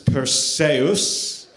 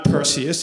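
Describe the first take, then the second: First: The name has a different, less familiar pronunciation. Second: The name has its familiar English pronunciation. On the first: The speaker calls it right. "it's Perseus" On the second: The speaker calls it wrong. "It's not Perseus"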